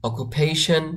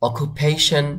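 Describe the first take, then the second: No difference in how they are said.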